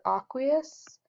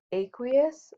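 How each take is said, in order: First: "aqueous" with an open A, AH-kwee-us; alternative pronunciation. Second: "aqueous" with a long A, AY-kwee-us; first pronunciation variant. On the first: Teacher offering students the other option, "aqueous" said AH-kwee-us. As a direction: say "aqueous" opening like "ah", not "ay". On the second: Teacher offering students one pronunciation option, "aqueous" said AY-kwee-us. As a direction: say "aqueous" opening like "ay" in day. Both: Shown as a demonstration. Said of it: "depending on your pronunciation".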